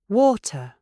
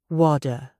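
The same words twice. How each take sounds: First: The t is a crisp, clear t. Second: The t sounds like a soft d. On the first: The speaker calls it right. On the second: The speaker calls it wrong.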